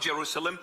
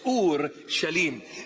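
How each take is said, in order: First: It is said in the familiar English form. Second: It is said as two parts, Ur Shalim. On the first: The speaker calls it wrong. "It's not Jerusalem" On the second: The speaker calls it right. "This is the proper pronunciation of the word"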